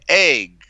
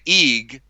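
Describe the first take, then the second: First: The vowel is a short 'e' sound. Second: The vowel is a long 'ee' sound. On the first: The speaker calls it right. "It's an egg, right? You can hear the egg" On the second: The speaker calls it wrong. "You don't say eeg"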